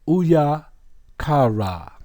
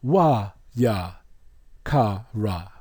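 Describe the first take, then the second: First: The name begins with an 'oo' sound. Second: The name begins with a 'wa' sound. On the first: "the lead pronunciation would be a woo" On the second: "the second pronunciation would be a wa"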